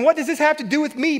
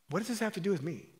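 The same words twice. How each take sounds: First: It is said in a sharp, spicy tone. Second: It is said in a gentle, mild tone.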